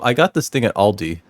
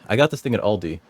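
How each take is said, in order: First: It is said in the speaker's normal voice. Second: It is said in a put-on character voice.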